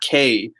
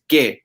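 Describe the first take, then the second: First: It sounds like the English letter K. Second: It ends in a short, pure 'e' vowel. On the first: The speaker calls it wrong. "it's not K" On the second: The speaker calls it right. "it's que"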